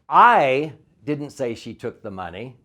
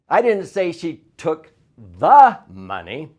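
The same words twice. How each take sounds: First: The stress falls on the word I. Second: The stress falls on the word took.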